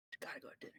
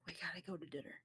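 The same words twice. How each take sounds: First: Urgent breathy whisper. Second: Said in the usual way. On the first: Acted. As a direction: whisper it close to her ear. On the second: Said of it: "hold her close".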